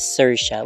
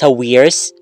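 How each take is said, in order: First: The name ends with a 'sha' sound. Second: The name ends with an 'irs' sound. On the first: The speaker calls it right. "it's supposed to be pronounced as" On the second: The speaker calls it wrong. "I at first I was pronouncing it as"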